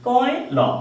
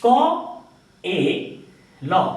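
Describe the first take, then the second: First: The sounds are said lightly and run together. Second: The sounds are said slowly and separately. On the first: "হালকা করে বলবো, অল্প করে বলবো" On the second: "এটা প্রথমে আস্তে আস্তে বললাম আমরা বোঝার জন্য"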